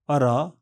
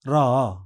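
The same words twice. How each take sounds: First: Said in the usual way. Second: रा with the आ drawn out; extra long vowel. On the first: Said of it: "साधारण". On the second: Shown as a demonstration. Teacher contrasts the long रा with the plain one. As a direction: hold the आ of रा long. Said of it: "extra long vowel".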